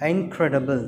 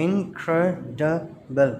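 First: Said in the usual way. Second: Slow "incredible" in four separate beats; syllable by syllable. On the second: Shown as a demonstration. Teacher counting syllables for children, "incredible" slowly split in four. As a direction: break "incredible" into in, cre, di, ble with pauses. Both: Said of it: "four syllables".

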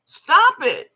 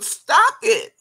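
First: "Stop it" higher and louder, snapped out; raised-voice "Stop it"; sharp loud stop. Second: Slow, deliberate, each word set down; drawn-out warning "stop it"; slow firm stop. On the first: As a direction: bark "Stop it" as a final warning. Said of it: "I mean, stop it". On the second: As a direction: draw out "stop it" slowly and firmly. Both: Real, not acted.

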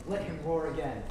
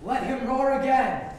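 First: Said in the usual way. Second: High, slow, bellowed repeat; roaring Duke. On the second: Acted. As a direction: roar it out like a lion. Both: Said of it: "make the Duke say".

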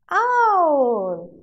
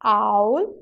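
First: Loud "owl" starting high, gliding down; owl, long falling model for children; owl drawn out, falling. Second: Put-on owl, rising for children to repeat; owl with rising tune. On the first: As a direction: stretch owl downward. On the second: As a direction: end owl on a rise. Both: Shown as a demonstration. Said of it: "Now say it with me".

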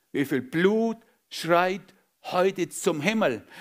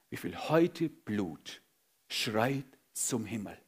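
First: Slow, stressing Blut; emphatic question. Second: Softer, slow, grave question; hushed question. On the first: Preacher pressing church about spilled blood, emphatic. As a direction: lean hard on Blut, slowly. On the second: Preacher asking church about spilled blood, hushed. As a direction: ask it quietly and gravely. Quiet question then repeated louder. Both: Acted.

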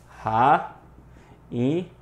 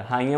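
First: "Rainha" as ra, i, nha with long pauses; separated syllables. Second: Said in the usual way. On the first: Shown as a demonstration. Teacher showing students the hiatus, "Rainha" in isolated syllables. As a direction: pull "Rainha" apart, each syllable standing alone. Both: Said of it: "em sílabas separadas".

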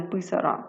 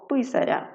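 First: "писара" with a hard "р"; unsoftened "ра" ending on "писара"; wrong hard r. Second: "Писаря" with a softened "р"; soft r. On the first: Teacher shows the mistaken form "писара", hard r. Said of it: "а не". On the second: Teacher shows the correct form "Писаря", soft r. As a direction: palatal "ря" ending on "Писаря". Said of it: "це м'яка група". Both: Shown as a demonstration.

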